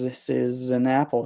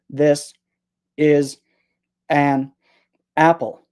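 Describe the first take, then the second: First: The words run together with sounds linked. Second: The words are said separately, without linking. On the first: The speaker calls it right. "We say this is" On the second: The speaker calls it wrong. "We don't say this is an apple"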